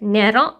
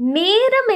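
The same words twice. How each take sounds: First: The e vowel is short. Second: The e vowel is long. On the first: The speaker calls it wrong. "கேட்க மாட்டோம்" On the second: The speaker calls it right. "கேட்போமோ"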